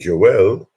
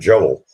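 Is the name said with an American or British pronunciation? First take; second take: British; American. First: It is said the British way. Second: It is said the American way.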